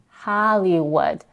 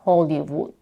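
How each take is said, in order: First: The first vowel is an open 'ah' sound. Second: The first vowel is a rounded 'oh' sound. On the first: The speaker calls it right. "we have a as in father in the first syllable" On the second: The speaker calls it wrong. "not ho"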